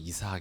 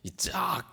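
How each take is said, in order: First: The name is said softly with a plain consonant. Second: The name is said forcefully with a tense consonant. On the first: The speaker calls it wrong. "부드럽게 이삭 이게 아니고" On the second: The speaker calls it right. "이짝 이렇게"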